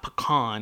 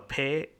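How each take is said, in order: First: The last syllable sounds like 'con'. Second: The last syllable sounds like 'can'. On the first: The speaker calls it wrong. "it's not pecan because there's no W or U after the A to make it an O" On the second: The speaker calls it right. "where you pronounce every single letter, it's pecan"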